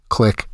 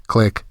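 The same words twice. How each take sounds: Both takes have the same delivery.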